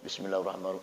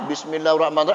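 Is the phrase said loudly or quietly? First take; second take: quietly; loudly. First: The phrase is recited quietly, under the breath. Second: The phrase is recited aloud, clearly audible. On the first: "ada baca sir" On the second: "ada kala dibaca jahar"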